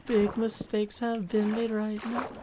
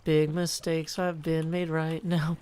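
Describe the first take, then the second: First: Slow, lightly put-on cartoonish old-timer voice; Yogi Berra voice. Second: Said in the usual way. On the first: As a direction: drag it out in a mild character voice. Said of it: "That's an impersonation of famous".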